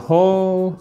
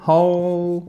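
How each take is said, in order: Both takes have the same delivery.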